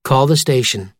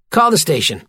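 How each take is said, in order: First: Calm, level voice command. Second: Higher, careful command to a phone. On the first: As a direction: say it evenly and clearly to the phone. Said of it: "and calmly said". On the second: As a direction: dictate it to voice recognition. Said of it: "cleared his throat, and said". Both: A narrator's reading.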